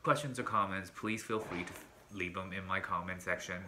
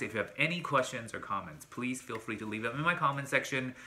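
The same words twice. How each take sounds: First: Flat, quiet robot-like read. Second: Said in the usual way. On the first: Real, not acted. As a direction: recite it like a robot, softly. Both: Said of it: "Why do I sound like a robot?".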